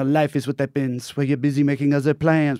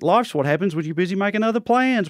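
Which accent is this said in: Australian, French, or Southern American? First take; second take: French; Australian. First: It is spoken in a French accent. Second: It is spoken in an Australian accent. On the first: The speaker sounds smart and seductive. "somebody in a French accent" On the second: The speaker sounds like someone who likes to party. "Australian accent"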